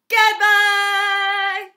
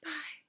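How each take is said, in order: First: It is said very loudly. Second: It is said very quietly.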